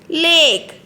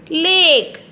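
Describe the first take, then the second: The two takes are said the same way.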